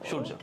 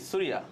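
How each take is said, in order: First: The name ends in 'rjo', two syllables. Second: The name ends in 'riya', three syllables. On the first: This is how it is said in Bengali. "বাংলাতে বলা হচ্ছে তখন এটা হয়ে যাচ্ছে" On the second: This is how it is said in Tamil films. "Tamil মুভিগুলোতে সুরিয়া"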